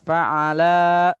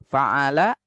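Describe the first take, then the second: First: The vowels are drawn out long. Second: The vowels are said short. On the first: Two people did it. "dibaca panjang" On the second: One person did it. "Bacaan pendek"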